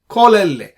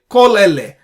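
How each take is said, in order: The two takes are said the same way.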